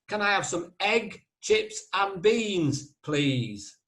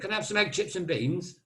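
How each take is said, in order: First: It is said slowly and clearly. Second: It is said fast, northern style.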